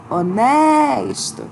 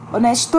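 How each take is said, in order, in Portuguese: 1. A palavra é dita com a sílaba tônica prolongada. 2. A palavra é dita de forma simples, com a sílaba tônica errada. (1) "A gente fala honesto" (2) "a gente não fala assim"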